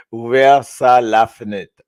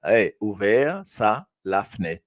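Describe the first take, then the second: First: «Ouvert ça, la fenêtre» said firmly and louder; louder model take. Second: «ouvert ça» drawn out slowly, «la fenêtre» said plainly; slower repeat. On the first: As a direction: model «Ouvert ça, la fenêtre» clearly and loudly for the class. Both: Shown as a demonstration. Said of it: "là, il est pas mal".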